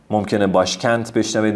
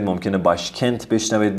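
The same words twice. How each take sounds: First: باشکند ending on a clear voiced d; final d. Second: باشکنت ending on a crisp t; final t. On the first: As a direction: say باشکند with a d at the end. (باشکند با د در آخر) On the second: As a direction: say باشکنت with a t at the end. (باشکنت با ت در آخر) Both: Shown as a demonstration.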